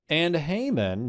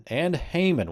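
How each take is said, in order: First: "Haman" higher, drawn out and rising; stress on Haman. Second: "Haman" raised and punched, falling; stress on Haman. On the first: Teacher showing the fronted topic, "Haman" drawn out and rising. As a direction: lean on "Haman", stretch it with a rise. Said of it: "notice here the topic is fronted". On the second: Teacher putting the focus on Haman, "Haman" punched high. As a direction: hit "Haman" high, then let it fall. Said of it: "we want the focus to be on him". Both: Shown as a demonstration.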